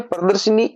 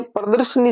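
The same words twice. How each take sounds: First: प्रदर्शनी with a short i after sh; correct form. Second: प्रदर्शनी with no i after sh; mistaken pronunciation. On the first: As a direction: sound "shi" in प्रदर्शनी. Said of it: "ये प्रदर्शनी शब्द बनेगा". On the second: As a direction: drop the middle i, प्रदर्शनी. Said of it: "शब्द वो गलत है". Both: Shown as a demonstration.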